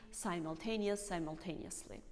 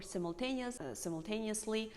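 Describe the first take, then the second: First: "simultaneous" and "simultaneously" opening with "sime"; long first vowel in "simultaneous"; "simultaneous" as "sigh-mul-taneous"; American long I. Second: "simultaneous" and "simultaneously" opening with "sim"; short first vowel in "simultaneous"; "simultaneous" as "sim-ul-taneous"; British short I. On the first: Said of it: "Here is the difference". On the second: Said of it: "British people say". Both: Shown as a demonstration.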